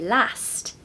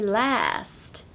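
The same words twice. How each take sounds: First: It is said in a northern British accent. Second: It is said in an American accent. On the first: "similar to the Northern British accent in the U K, as they say last" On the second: "in American they say last"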